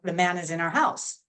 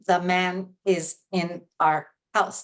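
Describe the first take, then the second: First: The words run together without breaks. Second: The words are said separately with breaks. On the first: The speaker calls it right. "can happen across many words in a sentence" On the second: The speaker calls it wrong. "I don't say the man is in our house"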